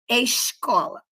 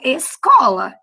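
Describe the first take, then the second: First: The s before the c sounds like sh. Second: The s before the c is a plain s. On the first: This is how the listeners' region says it. "eu não falo escola" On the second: This is how the speaker's region says it. "eu falo escola"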